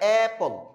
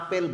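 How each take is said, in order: First: The first vowel is like 'a' in 'cat'. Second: The first vowel is an open 'ah' sound. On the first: The speaker calls it right. "এটা তো আপেল না, এটা অ্যাপল" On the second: The speaker calls it wrong. "এটাকে একসময় আপনি হয়তো আপেল বলতেন"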